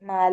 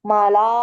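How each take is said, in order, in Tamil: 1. 'la' ஒலி லேசா, குறுகியா இருக்கு. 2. 'la' ஒலி கனமா, நீளமா இருக்கு. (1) "லாம் லைட் லெட்டர் தானே?" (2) "மலா இல்ல"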